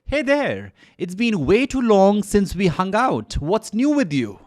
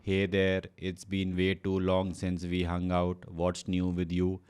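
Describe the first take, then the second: First: The voice sounds lively and enthusiastic. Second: The voice sounds flat and unexcited. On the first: The speaker calls it right. "एक उत्साह, एक enthusiasm लेके आइएगा" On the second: The speaker calls it wrong. "You should not sound like"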